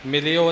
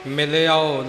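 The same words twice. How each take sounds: First: ਮਿਲਿਓ said as the wrong form to avoid; wrong pronunciation. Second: ਮਿਲਿਓ said as the correct form; correct pronunciation. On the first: Teacher demonstrating the wrong ਮਿਲਿਓ not to use. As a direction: show the mistake in ਮਿਲਿਓ. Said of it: "ਨਹੀਂ ਬੋਲਣਾ". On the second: Teacher giving the correct ਮਿਲਿਓ to the student. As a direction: say ਮਿਲਿਓ the right way, with the final vowel. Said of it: "ਮਿਲਿਓ ਐੜਾ ਲਗਾ ਕੇ". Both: Shown as a demonstration.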